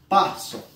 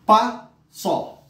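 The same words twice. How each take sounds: First: Said in the usual way. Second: PASSO as a high PA, pause, SÓ; split into syllables. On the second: Shown as a demonstration. Teacher counting impulses in passo, syllable by syllable. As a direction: sound out "pa, só" as two separate impulses. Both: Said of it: "pronunciar ela no impulso de voz".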